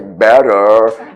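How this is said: It is said in an American accent.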